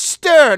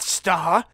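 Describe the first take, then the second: First: The vowel is a central 'er' sound. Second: The vowel is an open 'ar' sound. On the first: The speaker calls it right. "It's stir" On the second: The speaker calls it wrong. "not star. / Why are you saying it with an A?"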